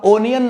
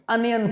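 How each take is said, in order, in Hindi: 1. यह शब्द 'oh' स्वर से शुरू होता है। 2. यह शब्द 'uh' स्वर से शुरू होता है। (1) "इसको आप ओनियन नहीं पढ़ा करो" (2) "अनियन पढ़ा करो"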